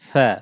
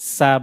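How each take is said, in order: First: The s sound is said soft. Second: The s sound is said hard. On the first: The speaker calls it right. "নরম" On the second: The speaker calls it wrong. "সা বললে এটা ভুল হবে"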